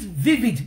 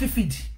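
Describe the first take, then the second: First: The word begins with a V sound. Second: The word begins with an F sound. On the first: The speaker calls it right. "Is vivid" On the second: The speaker calls it wrong. "not vivid. Te fi V pe F"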